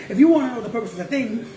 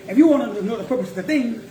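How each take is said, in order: Both takes have the same delivery.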